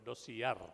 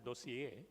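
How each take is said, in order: First: The word is said with an Indian pronunciation. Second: The word is said with a French pronunciation. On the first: "in an Indian uh, pronunciation, of course, it's called dossier" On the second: "It's a French word, you know, so it should be pronounced as a dossier"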